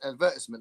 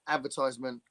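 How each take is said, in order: First: It is said the British way. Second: It is said the American way.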